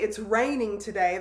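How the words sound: It is said as a statement.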